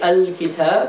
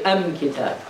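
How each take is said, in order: First: The article is said with an l sound. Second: The article is said with an m sound. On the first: "you don't say al-kitab" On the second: "the lam of alif lam is pronounced as mim"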